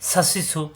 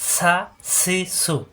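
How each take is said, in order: First: The syllables are said quickly together. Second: The syllables are said slowly and separately.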